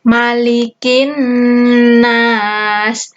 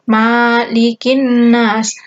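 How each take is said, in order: First: The first vowel 'ma' is kept short. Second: The first vowel 'ma' is drawn out long. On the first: The speaker calls it right. "Yang benar itu pendek" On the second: The speaker calls it wrong. "Ini sering sekali ada yang bacanya panjang. ... Salah ya"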